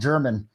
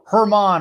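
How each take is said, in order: First: The name begins with a J sound. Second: The name begins with an H sound. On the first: The speaker calls it wrong. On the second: The speaker calls it right.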